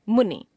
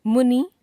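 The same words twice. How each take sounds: First: Said in the usual way. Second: मुनि ending on long ई, high, loud and rising; wrong pronunciation. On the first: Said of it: "शुद्ध". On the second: Shown as a demonstration. Teacher showing a common error, मुनि with long last vowel. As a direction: stretch नि to नी in मुनि, loudly. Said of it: "अशुद्ध".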